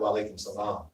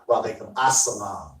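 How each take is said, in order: First: Salam follows alaikum with no added syllable. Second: An extra 'as' syllable comes before salam. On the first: The speaker calls it wrong. "the correct response is not" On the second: The speaker calls it right. "The correct response to that is"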